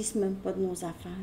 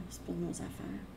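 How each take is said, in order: First: Said in the usual way. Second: C'est pas de nos affaires whispered softly as an echo; soft whispered repeat of the point. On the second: Real, not acted. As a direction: let the repeat drop to a whisper. Repeats the phrase, echoed softly.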